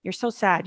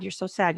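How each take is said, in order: First: You're so sad with so leaned on, said softly; soft pitying "You're so sad", weight on so; mock pity, stress on so. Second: You're so sad with sad leaned on, quieter and falling; soft pitying "You're so sad", weight on sad; mock pity, stress on sad. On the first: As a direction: mimic people's pity, pressing so. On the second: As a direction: mimic people's pity, landing on sad. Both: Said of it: "always talks about the sadness".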